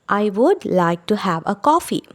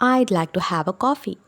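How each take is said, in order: First: Both words 'I would' are said in full. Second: 'I would' is shortened to one syllable.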